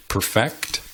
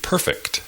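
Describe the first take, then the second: First: Perfect as per-FECT, the verb; stress on second syllable. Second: Perfect as PER-fect; stress on first syllable. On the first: Teacher gives more examples, Perfect stressed on second syllable. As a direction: push the last syllable of Perfect. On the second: Teacher gives more examples, perfect stressed on first syllable. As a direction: push the first syllable of perfect, weak ending. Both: Shown as a demonstration. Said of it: "Hay muchos ejemplos más".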